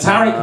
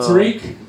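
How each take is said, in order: First: The name is said with British pronunciation. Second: The name is said with American pronunciation. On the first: This is how the speaker says his own name. The speaker calls it right. "because I pronounce it Tariq" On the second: This is how others in the country say the name. The speaker calls it wrong. "not Tariq"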